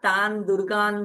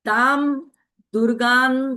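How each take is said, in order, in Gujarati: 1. પહેલો શબ્દ n અવાજથી અંત પામે છે. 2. પહેલો શબ્દ m અવાજથી અંત પામે છે.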